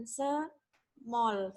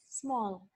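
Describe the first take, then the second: First: Small as sə-mol, very drawn out; small stretched with an extra vowel; wrong pronunciation. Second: Small as one syllable, smol; small said in one beat; correct pronunciation. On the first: Teacher drags out the wrong way, very slow. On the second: Teacher models the right way, one syllable. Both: Shown as a demonstration. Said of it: "Bukan small, tapi small".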